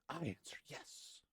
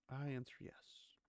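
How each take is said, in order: First: It is said with more passion. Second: It is said flatly, without passion.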